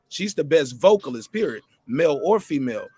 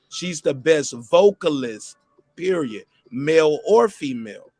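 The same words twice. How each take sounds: First: It is said at normal speed. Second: It is said slowly and deliberately.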